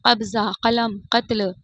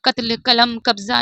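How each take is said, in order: First: कब्जा, कलम, कत्ल with throaty q; the right way, q from the throat; correct q sound. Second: कत्ल, कलम, कब्जा said with a plain front k; कत्ल कलम कब्जा with plain k sound; wrong plain k. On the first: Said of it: "का से पढ़ जाते हैं". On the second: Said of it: "ये गलत है". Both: Shown as a demonstration.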